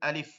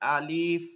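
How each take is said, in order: First: The vowel after the l is kept short. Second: The vowel after the l is drawn out. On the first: The speaker calls it right. "দ্রুত লিফ" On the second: The speaker calls it wrong. "না লামেও টান দেওয়া যাবে না, আলিফ এরকম না"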